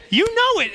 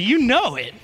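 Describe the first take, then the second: First: You know it jumped much higher; playful higher You know it to the congregation; knowing exclaim. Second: Said in the usual way. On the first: Shown as a demonstration. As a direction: fling You know it up high with a knowing grin. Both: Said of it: "you laugh because you know".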